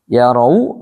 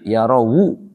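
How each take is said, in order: First: The waw is closed with no following vowel. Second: The waw carries a u vowel into the next word.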